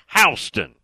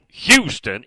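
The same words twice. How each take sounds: First: The first syllable sounds like 'how'. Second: The first syllable does not sound like 'how'. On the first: The speaker calls it right. "Phonetically, he spells it H-O-W-S-T-O-N" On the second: The speaker calls it wrong. "county is not Bill Houston"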